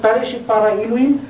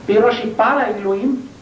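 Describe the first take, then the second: First: "Bereshit" with an E in the middle, "be-re-shit"; übliche Vokalisation. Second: "Bereshit" revocalised with an O, "be-rosh-i"; andere Vokalisation. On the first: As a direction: say "Bereshit bara Elohim" in the usual reading, "re" in "Bereshit". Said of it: "anders vokalisiere ... ich sage jetzt nicht". (übliche Lesung, „Bereshit“ mit E: „be-re-schit“) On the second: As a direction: say "Bereshit" as "be-ro-shi", then "bara Elohim". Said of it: "dieselbe Zeichenkette kann ich aussprechen". („Bereshit“ anders vokalisiert, mit O: „be-ro-schi“) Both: Shown as a demonstration.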